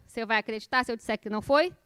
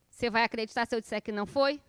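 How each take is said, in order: Both takes have the same delivery.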